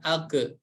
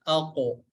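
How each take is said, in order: First: The final echo sounds like an e vowel. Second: The final echo sounds like an o vowel. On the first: The speaker calls it wrong. "bukan ake" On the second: The speaker calls it right. "tapi ako"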